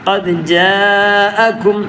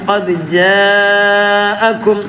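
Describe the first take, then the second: Both takes have the same delivery.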